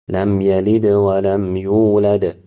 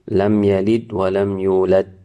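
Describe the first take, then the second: First: The final consonants have a slight, light bounce. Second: The final consonants stop dead with no echo. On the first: The speaker calls it right. "The moderate way is a slight bounce" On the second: The speaker calls it wrong. "not making echoing sound at all"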